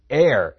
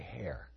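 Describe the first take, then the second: First: The word begins with no h sound. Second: The word begins with an audible h sound. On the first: The speaker calls it right. "Heir, H-E-I-R" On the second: The speaker calls it wrong. "Don't say hair"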